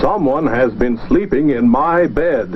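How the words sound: It is said in a big, deep voice. The biggest bear is speaking. "He said in his big voice"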